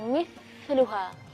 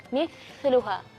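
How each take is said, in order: The two takes are said the same way.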